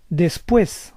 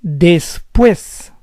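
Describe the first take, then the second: First: Said in the usual way. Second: Después split as des-PUÉS; syllable by syllable. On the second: Shown as a demonstration. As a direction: say Después in parts, stressing PUÉS. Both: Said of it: "we know where the stress goes".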